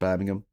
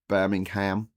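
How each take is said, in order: First: It is said in a British way. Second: It is said in an American way. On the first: The speaker calls it right. "instead of" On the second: The speaker calls it wrong. "the way that they say"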